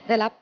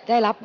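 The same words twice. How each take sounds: The two takes are said the same way.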